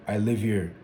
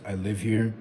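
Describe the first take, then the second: No difference in how they are said.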